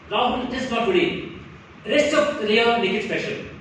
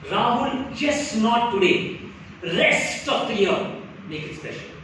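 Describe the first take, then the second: First: It is said plainly without stretched words. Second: Key words are stretched out for emphasis.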